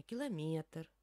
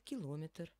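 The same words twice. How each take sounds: First: «километр» stressed on МЕ; third-syllable stress on «километр»; correct stress. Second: «километр» stressed on ЛО; second-syllable stress on «километр»; wrong stress. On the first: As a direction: lean on МЕ in «километр». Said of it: "А мы будем говорить правильно". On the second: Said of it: "есть личности, которые говорят". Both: Shown as a demonstration.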